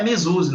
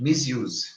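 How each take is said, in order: First: Misuse said Portuguese-style as mezuzi, with an added final vowel; mock the Brazilian misuse, mezuzi; wrong pronunciation. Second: Misuse said the English way as mis-yooz, clear s, no final vowel; correct pronunciation. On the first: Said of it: "Não é misuse, não". (misuse errado, falado mezuzi) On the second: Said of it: "Misuse, certo?". (Misuse correto, mis-iuz) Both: Shown as a demonstration.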